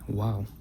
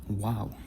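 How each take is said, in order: First: It begins and ends with a w sound. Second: It begins and ends with a w sound.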